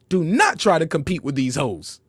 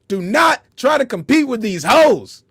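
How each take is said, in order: First: It is said in a calm, plain manner. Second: It is said in a forceful, aggressive manner. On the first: The speaker calls it wrong. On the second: The speaker calls it right.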